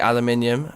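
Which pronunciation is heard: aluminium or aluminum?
aluminium. It is said the speaker's own regional way. This is how it is said where the speaker comes from. The speaker calls it right. "the correct way of saying it"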